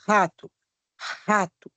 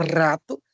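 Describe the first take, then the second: First: Rato with an aspirated h-like R; throaty R. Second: Rato with a rolled tongue-tip R; other R sound. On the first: Teacher presenting both sounds, rato with aspirated R. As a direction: say rato as "hato", breathy R. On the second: Teacher presenting both sounds, Rato with trilled R. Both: Shown as a demonstration. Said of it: "Aí você apresenta os dois sons".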